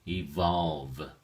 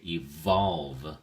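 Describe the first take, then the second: First: Evolve with both V's buzzed clearly; teacher repeating evolve with distinct V's; strong V sounds. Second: Evolve with both V's buzzed clearly, said slowly; teacher modelling strong English V in evolve; strong V sounds. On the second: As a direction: make the V's in evolve distinct. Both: Shown as a demonstration. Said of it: "we pronounce our V's a little bit more stronger".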